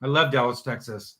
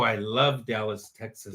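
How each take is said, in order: First: Said in the usual way. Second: I love Dallas, Texas, said slowly with every word drawn out and a low finish. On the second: Shown as a demonstration. Co-host savoring his love for Dallas, drawn out slowly. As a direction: linger lovingly over "love" and "Dallas". Repeats line to play on it.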